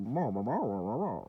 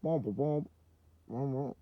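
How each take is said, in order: First: Softer muffled wah-wah teacher drone; a light hint of the muffled cartoon teacher; Charlie Brown adult. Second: Softer, trombone-like wah wah drone; a muffled, honking cartoon teacher; a lightly voiced, muffled cartoon teacher; better Charlie Brown adult. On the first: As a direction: mumble like an unseen cartoon teacher. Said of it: "sounded like the fucking Charlie Brown adults". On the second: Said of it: "That's probably better".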